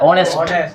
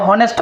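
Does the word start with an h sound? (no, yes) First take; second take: no; yes. First: The word starts directly with a vowel sound. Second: The word starts with an h sound. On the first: The speaker calls it right. "सुनाई क्या दे रहा है" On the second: The speaker calls it wrong. "तो गलत पढ़ रहे हो"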